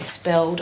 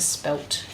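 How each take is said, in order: First: The word ends with a d sound. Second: The word ends with a t sound. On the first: "You say spelled" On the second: "versus spelt"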